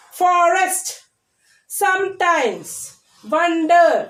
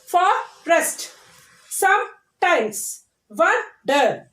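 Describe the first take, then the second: First: Said in the usual way. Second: "Forest, sometimes, wonder" each broken into two beats; split into syllables. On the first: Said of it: "And two syllable words". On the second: Shown as a demonstration. Teacher showing two syllable words, "Forest, sometimes, wonder" split syllable by syllable. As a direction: pause inside each word: fo-rest, some-times, won-der. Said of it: "These are the two syllable words".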